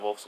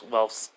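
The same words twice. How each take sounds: First: "Wolf's" said with the oo vowel of wool; mispronounced name. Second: "Wolf's" said as Welf's, with a short e; corrected name. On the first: Storyteller slips on a character's name, "Wolf's" with an oo vowel. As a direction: say "Wolf's" like the animal, with an oo. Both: Real, not acted. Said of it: "I mean, not Wolf's".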